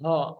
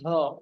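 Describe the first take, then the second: Both takes have the same delivery.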